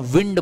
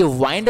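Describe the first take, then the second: First: विंड said as wind, short i; the right विंड, short i as in air moving; correct pronunciation. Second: वाइंड said as wynd, long eye sound; the mistaken वाइंड, wynd like to wind a clock; wrong reading. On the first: Teacher giving students the noun: विंड with short i. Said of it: "इसको हम विंड बोलते हैं". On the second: Teacher warning students about the noun: वाइंड as wynd. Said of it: "ये वाइंड नहीं बोलते हैं". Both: Shown as a demonstration.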